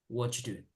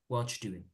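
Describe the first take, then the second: First: The words are run together, dropping are. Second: The same.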